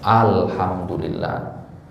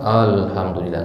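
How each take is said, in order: First: The a vowels are full and wide open. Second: The a vowels are lazy and barely opened. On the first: The speaker calls it right. "jangan kita malas buka mulut selebar-lebarnya" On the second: The speaker calls it wrong. "Tapi kalau malas, ... nggak akan benar pengucapannya"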